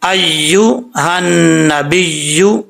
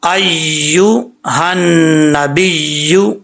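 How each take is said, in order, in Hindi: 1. दोहरी 'y' की आवाज़ पूरी तरह लंबी खींची जाती है। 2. दोहरी 'y' की आवाज़ पूरी तरह लंबी खींची जाती है।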